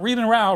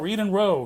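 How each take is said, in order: First: Row is not said as in rowing a boat. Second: Row is said as in rowing a boat. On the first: The speaker calls it wrong. "Not Read and Row" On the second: The speaker calls it right. "like rowing your boats"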